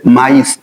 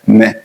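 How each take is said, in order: First: Maïs said slowly as ma-ees; maïs in two syllables, final S sounded; two separate vowels. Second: Mais as a single syllable, like meh; one vowel sound. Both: Shown as a demonstration. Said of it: "les deux voyelles forment un seul son".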